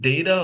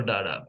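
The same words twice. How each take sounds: First: "data" opening like the word day; day-ta pronunciation. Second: "data" with ah in the first syllable; dah-ta pronunciation. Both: Shown as a demonstration. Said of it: "two different sounds to that".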